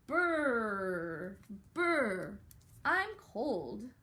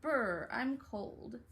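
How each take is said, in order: First: Loud shivery "brr, I'm cold"; shivering cold voice. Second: Drawn-out cold shiver; slow "brr" like freezing. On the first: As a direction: act freezing in the snow. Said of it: "have Miss McCracken's brother say". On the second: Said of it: "brother say". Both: Acted.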